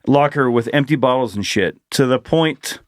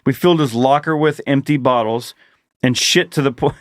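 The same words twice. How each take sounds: First: Phrase break after "shit"; corrected reading. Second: Misplaced pause after "bottles"; misread phrasing. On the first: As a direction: run "bottles and shit" together, then "to the point". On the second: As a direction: pause after "bottles", run "and shit to the point" together. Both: Shown as a demonstration. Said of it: "Let me read that better".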